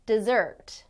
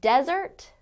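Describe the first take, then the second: First: "desert" as di-ZERT, second syllable stressed, falling. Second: "Desert" as DEZ-ert, first syllable stressed, rising. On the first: Teacher contrasting two words for learners, "desert" stressed on the second syllable. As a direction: lean on the SERT in "desert", the verb. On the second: Teacher contrasting two words for learners, "Desert" stressed on the first syllable. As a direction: punch the DES in "Desert", the noun. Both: Shown as a demonstration. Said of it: "Do you hear the difference there?".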